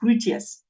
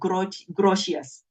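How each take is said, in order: First: The name starts with an H sound. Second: The name starts with a hard G sound. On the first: The speaker calls it right. "actually the G in Dutch becomes a H" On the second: The speaker calls it wrong. "most people pronounce him as Grotius"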